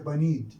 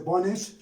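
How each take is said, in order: First: The word ends with a D sound. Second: The word ends with a T sound. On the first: This is the borrowed Iraqi Arabic form. "in colloquial Iraqi uh, Arabic we say banid" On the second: This is the original English form. "Here it ends in te"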